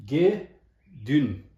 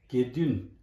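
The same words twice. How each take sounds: First: Ge and dun split apart, Ge punched louder; syllable by syllable. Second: Said in the usual way. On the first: Shown as a demonstration. Teacher splitting Gedun into syllables for students. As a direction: say Ge, pause, then dun.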